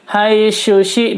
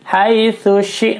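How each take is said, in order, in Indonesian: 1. Konsonan setelah 'hai' terdengar seperti 'sh'. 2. Konsonan setelah 'hai' terdengar seperti 'th'. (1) "dua-duanya shin kalau begitu" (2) "ujung lidah terletak di antara gigi atas dan gigi bawah"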